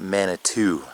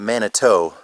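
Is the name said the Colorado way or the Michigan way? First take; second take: Colorado; Michigan. First: It is said the way Colorado locals say it. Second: It is said the way Michigan speakers say it. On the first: The speaker calls it right. "out here they pronounce it" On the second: The speaker calls it wrong. "in Michigan we pronounce it"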